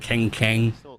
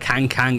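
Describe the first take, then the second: First: The vowel sounds like an E. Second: The vowel is neither E-like nor U-like. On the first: "It's not E, it's not Keng Keng" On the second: "it's not Kang Kang"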